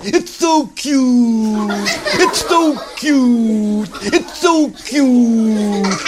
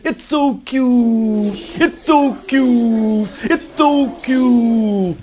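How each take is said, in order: First: High, slow cooing over the bunny; cooing girls. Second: High, slow cooing over the bird; cooing kids. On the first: Girls cooing at a baby bunny, high and slow. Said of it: "all the girls said". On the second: Whole class cooing at a little bird, high and slow. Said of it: "everybody said". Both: Acted. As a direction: melt over something adorable.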